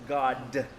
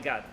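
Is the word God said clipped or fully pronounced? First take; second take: full; clipped. First: Every sound of the word is fully pronounced. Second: The word is clipped and cut short. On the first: The speaker calls it right. "He says God" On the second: The speaker calls it wrong. "he doesn't say God"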